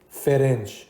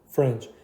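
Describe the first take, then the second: First: A vowel is inserted between f and r. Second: The f runs straight into the r. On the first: The speaker calls it wrong. "نگین فرنچ، ا ندین حداقل بهش" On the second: The speaker calls it right. "میشه فرنچ"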